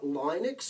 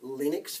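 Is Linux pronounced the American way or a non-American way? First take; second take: non-American; American. First: It is pronounced in a non-American way. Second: It is pronounced the American way.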